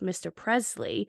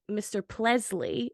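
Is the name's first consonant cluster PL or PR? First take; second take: PR; PL. First: The R in the name sounds like an R. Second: The R in the name sounds like an L. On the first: This is the usual pronunciation. "instead of mister [name]" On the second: This imitates one man's unusual pronunciation. "his R's would sometimes come out as L's"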